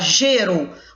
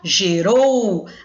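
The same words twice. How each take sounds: First: The stress is on the first syllable. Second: The stress is on the last syllable. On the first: The speaker calls it wrong. "Você não fala gerou" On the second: The speaker calls it right. "você fala gerou"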